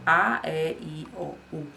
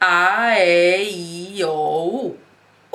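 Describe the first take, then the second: First: It is said at a normal, quieter volume. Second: It is said loudly, projected after a breath.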